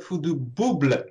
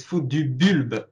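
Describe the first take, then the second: First: "Bouble" with the l after the b; mispronounced "Bouble", ending in -bluh; imitated wrong pronunciation. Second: "Bulbe" with the l before the final b; French "Bulbe" with a tight ü vowel; correct French pronunciation. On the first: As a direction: say "Bouble" as BOO-bluh, echoing the mistake. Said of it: "it's not Fou du Bouble". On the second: Shown as a demonstration. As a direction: say "Bulbe" the French way, BÜL-buh. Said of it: "It's Fou du Bulbe".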